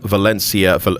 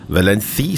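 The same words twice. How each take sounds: First: The name is said with an English pronunciation. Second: The name is said with a Spanish pronunciation. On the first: The speaker calls it wrong. "it didn't take long for the uh, pronunciation to go" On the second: The speaker calls it right. "I'm doing the pronunciation correctly for our Spanish viewers"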